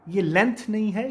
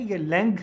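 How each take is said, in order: First: लेंथ ending on a dental t, slowly; wrong way. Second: लेंथ ending on a nasal ng with a g; right way. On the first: Teacher correcting students, slow wrong take of लेंथ. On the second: Teacher correcting students, right take of लेंथ. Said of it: "है, लेंथ।". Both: Shown as a demonstration.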